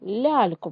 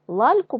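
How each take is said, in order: First: The first л sound is soft. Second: The first л sound is hard. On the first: The speaker calls it right. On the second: The speaker calls it wrong.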